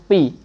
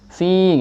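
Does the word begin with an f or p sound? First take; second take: p; f. First: The word begins with a p sound. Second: The word begins with an f sound. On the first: The speaker calls it wrong. "jangan pi" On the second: The speaker calls it right. "tapi fi gitu"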